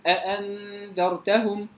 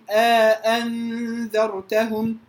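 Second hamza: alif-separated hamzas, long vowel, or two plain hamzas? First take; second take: two hamzas; alif-separated. First: Two full hamzas with no vowel between them. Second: Two full hamzas with an alif inserted between. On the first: "التحقيق بغير إدخال" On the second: "التحقيق مع الإدخال"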